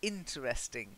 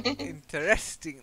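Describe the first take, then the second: First: The stress falls on the first syllable. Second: The stress falls on the syllable rest. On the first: The speaker calls it right. "but no, it's interesting" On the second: The speaker calls it wrong. "That would be to rest"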